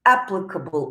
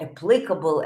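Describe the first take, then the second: First: "applicable" stressed on the opening AP; first-syllable stress. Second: "applicable" stressed on PLIC; second-syllable stress. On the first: Teacher showing one of two variants, "applicable" with AP stressed. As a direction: say "applicable" as AP-lic-able. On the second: Teacher showing the other variant, "applicable" with PLIC stressed. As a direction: say "applicable" as a-PLIC-able, pitch lower. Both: Shown as a demonstration. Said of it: "as they say in two variants".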